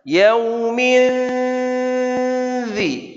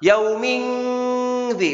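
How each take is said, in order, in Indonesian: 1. Nasal sebelum 'dhi' terdengar seperti 'n'. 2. Nasal sebelum 'dhi' terdengar seperti 'ng'. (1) "Jadi terasa huruf dalnya" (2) "bukan yauming dhi. Ini tidak sempurna"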